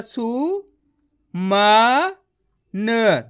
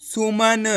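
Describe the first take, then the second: First: सु, म, न each said on its own; syllable by syllable. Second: सुमन said as one joined word; blended word. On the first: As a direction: sound out सु... म... न for learners. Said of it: "एक एक अक्षर का उच्चारण करके". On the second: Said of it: "तो मिलके बन जाएगा". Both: Shown as a demonstration.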